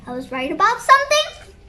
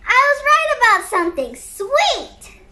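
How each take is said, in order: First: Quick question, rising at the end; acted surprise, lifting on the last word; surprised question. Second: High, quick burst of delight; acted glee, pitched up high; delighted exclamation. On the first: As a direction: ask it in happy disbelief. Kid surprised to be right. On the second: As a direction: exclaim it proudly, falling at the end. Kid delighted at being right.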